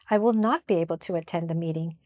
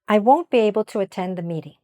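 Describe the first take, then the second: First: The negative is said as two separate words. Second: The negative is contracted to one syllable. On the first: The message is clear and not mistaken. The speaker calls it right. "Break up the negative contraction" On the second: Listeners may misunderstand the message. The speaker calls it wrong. "if you don't say this word clearly, people may misunderstand you"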